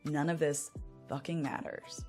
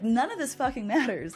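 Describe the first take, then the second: First: It sounds hopeless and despairing. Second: It sounds delighted and liberated.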